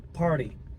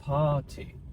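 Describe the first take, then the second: First: The R after the vowel is pronounced. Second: The R after the vowel is silent. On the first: "no sotaque americano" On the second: "No sotaque britânico, a gente não fala esse R"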